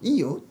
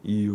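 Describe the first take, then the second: First: It is said in a higher voice. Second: It is said in a lower voice.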